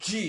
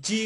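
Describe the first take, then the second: First: "জি" with the tongue pressed to the palate; correct letter G. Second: "জি" as the ordinary Bengali j syllable; everyday wrong G. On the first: Teacher corrects the natural G, "জি" from the palate. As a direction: press and release a firm j in "জি". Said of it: "এটা হবে". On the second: Teacher shows what we normally say, "জি" unemphasised. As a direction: say "জি" with an easy, natural j. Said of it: "জি বলে থাকি". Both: Shown as a demonstration.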